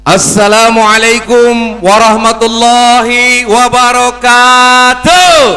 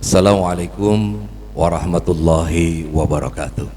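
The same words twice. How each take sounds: First: It is said energetically with a lively pitch. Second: It is said flatly with a low pitch.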